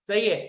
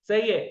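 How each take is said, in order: No difference in how they are said.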